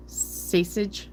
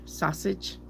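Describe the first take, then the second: First: "Sausage" as "SAY-sij", rising; varied pronunciation. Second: "Sausage" as "SAH-sij", softer, rising; varied pronunciation. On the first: Reader comparing ways to say it, "saysage". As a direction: put an "ay" in the first syllable of Sausage. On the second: Reader comparing ways to say it, "sahsage". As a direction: open "ah" in the first syllable of Sausage. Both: Shown as a demonstration. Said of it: "you could say sausage".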